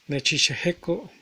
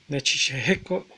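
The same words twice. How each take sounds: The two takes are said the same way.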